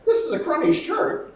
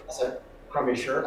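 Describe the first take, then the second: First: Repeated back, pitched up. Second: Said in the usual way. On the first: Shown as a demonstration. Acting teacher demoing the repeat, pitched way up. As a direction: repeat it back high and loud. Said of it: "I go". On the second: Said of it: "If you go".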